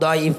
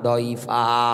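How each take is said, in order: First: The word ends without any added vowel. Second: The word ends with a drawn-out vowel. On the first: "শুধু দইফ না" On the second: "এক আলিফ টান দিয়ে বলেছে মানুষ একেবারে দুর্বল"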